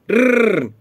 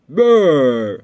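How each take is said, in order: First: Short, loud, higher engine brrr; engine too rich. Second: Long, loud engine brrr; engine too lean. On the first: Showing a rider how a rich engine sounds, imitated motor noise. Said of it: "trop riche". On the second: Showing a rider how a lean engine sounds, imitated motor noise. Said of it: "Ta machine fait brrr, trop pauvre". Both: Shown as a demonstration.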